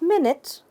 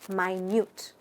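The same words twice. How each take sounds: First: Pronounced like the word for a period of time. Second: Pronounced like the word meaning very small. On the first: It names a period of time. The speaker calls it wrong. "Not minute, ... spelt like minute, a period of time" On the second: It means very small. The speaker calls it right. "but minute ... pronounced as minute, meaning very small"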